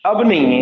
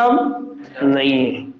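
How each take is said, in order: First: "अब नहीं है" with नहीं pressed firmly; stress on नहीं. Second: Drawn out, lower and slow. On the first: Teacher confirming to students, firm stress on नहीं. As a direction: lean on नहीं in "अब नहीं है". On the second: Teacher explaining ex MLA to students, slow and low. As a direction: let "अब नहीं है" sink slowly and low. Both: Shown as a demonstration. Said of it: "पहले MLA था".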